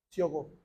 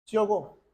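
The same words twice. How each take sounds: First: Hushed drop. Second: Said in the usual way. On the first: Shown as a demonstration. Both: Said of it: "dramatic repeat of the phrase".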